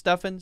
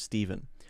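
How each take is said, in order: First: The name sounds like 'Stuffin', with an f. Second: The name sounds like 'Steven', with a v. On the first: "sometimes pronounced Stuffin" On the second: "sometimes pronounced Stephen"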